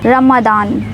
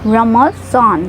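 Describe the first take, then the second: First: The middle consonant is a plain d sound. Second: The middle consonant is the emphatic swad sound. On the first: The speaker calls it wrong. "ना रमदान" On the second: The speaker calls it right. "स्वाद की आवाज निकालेंगे यहाँ पे"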